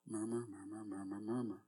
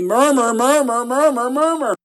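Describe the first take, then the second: First: It is said quietly. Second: It is said loudest of all.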